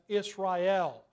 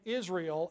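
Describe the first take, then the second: First: The stress is on the last syllable. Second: The stress is on the first syllable.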